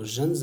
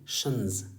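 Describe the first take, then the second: First: The ending begins with a 'j' sound. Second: The ending begins with a 'sh' sound. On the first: The speaker calls it wrong. "जन्स नहीं" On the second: The speaker calls it right. "बल्कि शंस"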